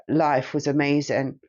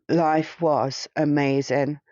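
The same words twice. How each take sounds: First: Said in the usual way. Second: Slow, wistful repeat, rising at the end; slow, savoring. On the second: Real, not acted. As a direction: let each word of Life was amazing linger, slowly.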